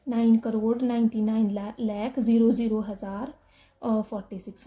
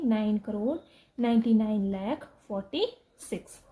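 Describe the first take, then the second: First: Reading out zero zero हज़ार as if the zeros counted, a bit louder; mock the mistake by saying zero zero हज़ार aloud; wrong reading. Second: Said in the usual way. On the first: Shown as a demonstration. Teacher showing students the wrong way to read the number, reading the zeros aloud. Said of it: "ऐसे नहीं पढ़ना है कि". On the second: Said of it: "कैसे हो गया ये".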